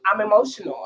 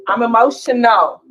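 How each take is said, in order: First: Said in the usual way. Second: High and loud, insisting on it; loud, high, fired-up claim; emphatic loud declaration. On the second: Real, not acted. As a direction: belt it out like a confession you're proud of. Repeats I'm emotional, raised take.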